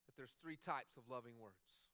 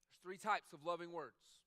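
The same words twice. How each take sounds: First: Said in the usual way. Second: Louder, slow repeat with types stressed; emphatic repeat. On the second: Shown as a demonstration. Preacher repeating his point to the congregation, louder and emphatic. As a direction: hit "types" hard the second time.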